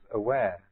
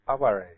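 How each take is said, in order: First: It is pronounced like the English word. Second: It is pronounced as a Japanese word. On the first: "transliterated the same as aware" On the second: "but it's pronounced aware"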